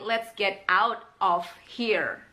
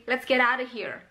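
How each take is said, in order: First: 'Let's get out of here' slow, word by word; slow, unblended 'Let's get out of here'; full form. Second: 'Let's get out of here' as 'let's geddarr-uh here'; quick linked 'Let's get out of here'; reduced and blended. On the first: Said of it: "itu sebenarnya adalah reduction dari". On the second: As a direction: blend 'get out of' into one chunk in 'Let's get out of here'. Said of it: "dengan reduction dan blending". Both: Shown as a demonstration.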